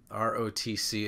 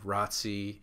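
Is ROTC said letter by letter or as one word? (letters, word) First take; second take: letters; word. First: Each letter is said separately. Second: The letters are said together as one word. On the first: "R-O-T-C is an initialism" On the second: "ROTC is an acronym"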